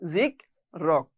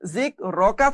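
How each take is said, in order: First: The word ends on a bare consonant. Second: The word ends with a short vowel sound. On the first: The reading stops at this word. "ওয়াকফ হওয়ার কারণে... যার কারণে এর উচ্চারণ হয়েছে জিক রক" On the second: The reading continues without stopping here. "জিক রকা ছিল"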